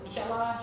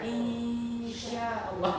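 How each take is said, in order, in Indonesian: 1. Bunyi sengau sebelum 'sh' dibaca pendek. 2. Bunyi sengau sebelum 'sh' dibaca panjang. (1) "orang Melayu tak baca gitu, tak sebut tu" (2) "Itulah bacaan dia"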